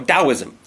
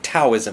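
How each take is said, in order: First: The word begins with a D sound. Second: The word begins with a T sound. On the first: The speaker calls it right. "you know how to pronounce it correctly" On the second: The speaker calls it wrong. "they'll pronounce it Taoism with a T"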